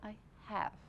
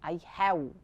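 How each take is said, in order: First: Have ends with a V, lip against teeth. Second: Have ends with a rounded-lip W-like sound. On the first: The speaker calls it right. "පොඩ්ඩක් අපි තොල හපලා" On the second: The speaker calls it wrong. "Don't say I have"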